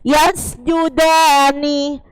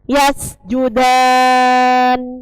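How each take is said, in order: First: The word ends with a final vowel after n. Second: The word ends abruptly on the n consonant. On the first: The reading continues without stopping. "Hurufnya itu aslinya hidup" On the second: The reader stops at this word. "Kalau wakof dibaca yasjudan"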